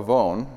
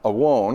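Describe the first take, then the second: First: It is said with the modern Hebrew pronunciation. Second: It is said with the ancient Hebrew pronunciation. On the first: "depending on if you're ancient or modern" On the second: "depending on if you're ancient or modern"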